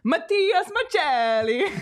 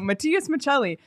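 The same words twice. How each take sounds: First: It is said in an Italian accent. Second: It is said in a plain accent.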